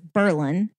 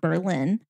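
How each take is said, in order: First: The stress is on the first syllable. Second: The stress is on the second syllable. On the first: It names the small town in New York. The speaker calls it right. "so it's Berlin" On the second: It names the city in Germany. The speaker calls it wrong. "not Berlin"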